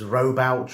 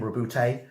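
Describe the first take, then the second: First: The name is said the older way. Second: The name is said the current way. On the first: This is how fans said it for years. "for years it was" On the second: This is the officially used pronunciation. "I've been advised that is how you pronounce his name"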